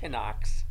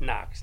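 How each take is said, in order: First: The initial K sound is pronounced. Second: The initial K sound is silent. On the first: The speaker calls it wrong. "not Knox" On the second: The speaker calls it right. "it's Fort Knox, The K's silent"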